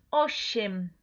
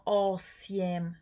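First: "osiem" with si as one soft sh, o-shem; soft si sound. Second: "osiem" slowly split, o-si-em, with a plain s; wrong hard s. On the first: Teacher showing learners the right Polish word, "osiem" with soft sh. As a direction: say "osiem" with a gentle hushed sh in the middle. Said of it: "un sonido más suavecito". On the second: Teacher showing learners the mistake to avoid, "osiem" slow with plain s. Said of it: "No osiem". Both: Shown as a demonstration.

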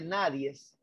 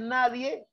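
First: "nadies" con una s añadida al final, lento; barbarismo nadies. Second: Said in the usual way. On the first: Shown as a demonstration. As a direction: di "nadies" como error, alargando la s final. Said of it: "este salvaje dice nadies". ("nadies" pronunciado con s final, como barbarismo) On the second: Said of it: "en vez de decir nadie, este salvaje dice nadies".

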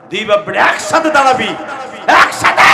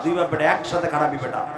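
First: Higher, much louder shout of the order; shouted command. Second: Said in the usual way. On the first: Real, not acted. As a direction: yell it across the field. Repeats order, then shouts it.

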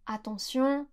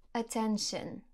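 First: Attention said the French way, ending in a nasal on; French pronunciation. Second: Attention said the English way, a-TEN-shun; English pronunciation. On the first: Teacher showing the French attention beside the English. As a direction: say attention in French, a-tan-syon. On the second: Teacher showing the English attention beside the French. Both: Shown as a demonstration. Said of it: "Par exemple".

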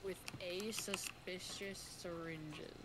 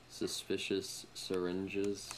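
First: "suspicious syringes" echoed slowly with a long hiss. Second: "suspicious syringes" drawn out slowly, hissing the s; stressed suspicious syringes. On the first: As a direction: repeat "suspicious syringes" slow and teasing. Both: Shown as a demonstration. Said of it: "I'm not gonna say what's in the syringe".

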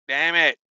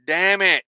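Both takes have the same delivery.

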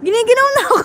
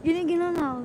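First: Cold and shivering. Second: Quick laughing repeat. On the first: (nanginginig sa lamig) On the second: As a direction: laugh it out fast. (natatawang sinasabi) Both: Real, not acted.

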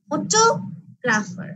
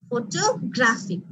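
First: photographer very slow, টো punched and held; stress on second syllable. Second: photographic slow, weight on গ্রা; stress on third syllable. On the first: Teacher recaps for class, second syllable টো of photographer stressed. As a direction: hit টো in photographer, then pause before the rest. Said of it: "second সিলেবলে আমি stress দিচ্ছি ফটোগ্রাফারে". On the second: Teacher recaps for class, third syllable গ্রা of photographic stressed. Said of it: "third সিলেবলে কি করছি". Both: Shown as a demonstration.

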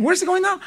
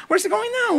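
First: Lightly higher, eager angel asking; curious angels. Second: Higher, more urgent repeat; more excited angels. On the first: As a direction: chase him with curiosity. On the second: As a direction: push the question higher the second time. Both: Retold or imitated. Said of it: "And they're following him".

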